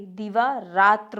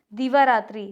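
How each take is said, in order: First: दिवारात्र without final "i"; correct form. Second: दिवारात्रि with final "i"; incorrect form. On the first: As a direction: say दिवारात्र as "divaa-raatra". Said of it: "होता है". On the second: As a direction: say दिवारात्रि as "divaa-raatri". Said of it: "दिवारात्र होता है". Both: Shown as a demonstration.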